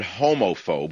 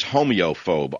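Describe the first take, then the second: First: Homophobe said the usual way, HOH-mo-phobe, no extra vowel; familiar word. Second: Homeophobe said with an extra "ee" sound, HO-mee-o-phobe; new coined word. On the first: Host contrasting the known word, homophobe said normally. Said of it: "we've all heard the word homophobe". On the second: Host coins a pun for listeners, homeophobe with the added ee. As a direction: stretch homeophobe into hoh-mee-oh-phobe, the ee clearly voiced. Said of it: "The new word is homeophobe". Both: Shown as a demonstration.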